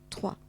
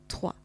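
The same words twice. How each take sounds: The two takes are said the same way.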